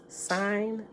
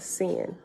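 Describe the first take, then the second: First: The vowel is long, rhyming with 'pine'. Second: The vowel is short, rhyming with 'pin'. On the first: The speaker calls it right. "Sign. Like sign" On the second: The speaker calls it wrong. "It's not sin"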